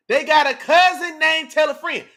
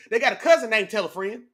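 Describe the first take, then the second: First: Higher and louder, cousin leaned on; louder punchline repeat. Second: Said in the usual way. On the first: Real, not acted. Streamer plugging sharing the stream to viewers, louder punchline. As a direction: land the joke the second time.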